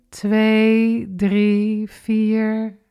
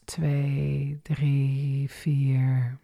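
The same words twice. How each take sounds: First: Inhale count. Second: Exhale count. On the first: Instructor counting the in-breath, lifted. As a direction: count held up and lifted, a little louder. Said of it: "En adem maar weer in". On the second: Instructor counting the out-breath, low and soft. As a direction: lower and softer, letting it sink. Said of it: "En uit". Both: Shown as a demonstration.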